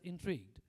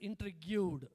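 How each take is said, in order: First: The ending is clipped into one short syllable. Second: The ending is sounded out as an extra syllable. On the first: The speaker calls it right. "Later, I got to know it has to be pronounced as intrigued" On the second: The speaker calls it wrong. "I used to pronounce it as intrigued, okay, because it's G U E D"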